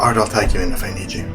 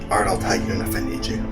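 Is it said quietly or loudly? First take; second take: loudly; quietly. First: It is said loudly. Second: It is said quietly.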